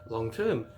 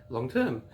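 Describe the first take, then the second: No difference in how they are said.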